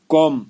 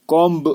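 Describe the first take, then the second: First: कॉम ending cleanly on M; right form कॉम, louder, no B; silent B. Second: कॉम्ब with a B released after M; wrong form कॉम्ब, ending "m-b"; sounded B. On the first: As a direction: drop the B from कॉम. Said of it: "ये बी silent है". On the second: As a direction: voice the last B of कॉम्ब. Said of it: "कॉम्ब नहीं बोलना है". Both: Shown as a demonstration.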